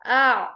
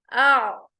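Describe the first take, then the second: First: आ started gently from the throat with no jerk; soft ain. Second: आ started with a sharp glottal jerk, the wrong way; jerked ain. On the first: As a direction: ease into आ smoothly, no catch at the start. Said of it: "झटका नहीं, बल्कि". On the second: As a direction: hit the start of आ with a catch, as the mistake to avoid. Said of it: "ऐसे नहीं पढ़ना". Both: Shown as a demonstration.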